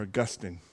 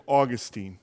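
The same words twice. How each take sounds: First: "Augustine" stressed on the middle syllable; pronounced uh-GUS-tin. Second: Put-on "Augustine" ending in a long "-teen"; pronounced AW-gus-teen. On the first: Pastor offering the other regional form, "Augustine" said uh-GUS-tin. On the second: Pastor naming the sermon's subject, "Augustine" said AW-gus-teen. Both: Shown as a demonstration. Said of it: "depending on where you're from and how you pronounce it".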